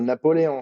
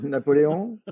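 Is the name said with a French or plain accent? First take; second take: plain; French. First: The name is said in a plain accent. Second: The name is said with a French accent.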